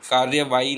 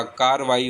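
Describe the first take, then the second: First: कार्यवाही with र्य, incorrect; teacher shows the mistaken कार्यवाही; wrong form कार्यवाही. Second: कार्रवाई with double र, no य; teacher models the correct कार्रवाई; correct form कार्रवाई. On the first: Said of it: "कार्यवाही नहीं होता". (गलत रूप कार्यवाही) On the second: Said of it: "कार्रवाई होता है". (सही उच्चारण कार्रवाई) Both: Shown as a demonstration.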